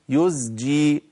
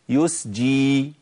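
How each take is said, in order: First: The consonant before the j is a voiced z. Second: The consonant before the j is a voiceless s. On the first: The speaker calls it right. "يزجي سحابة" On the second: The speaker calls it wrong. "كتير من الناس في يزجي دي بيقولوا ايه؟"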